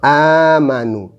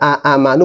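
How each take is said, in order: First: One long vowel is held at the start. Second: Two short vowels are separated by a catch. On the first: "sekarang dibaca panjang" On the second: "Yang tadi dibaca pendek"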